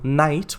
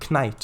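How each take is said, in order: First: The word starts with an n sound. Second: The word starts with a k sound. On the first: This is the modern pronunciation. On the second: This is the original, older pronunciation.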